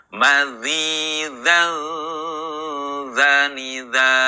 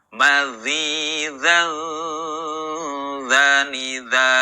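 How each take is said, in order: Both takes have the same delivery.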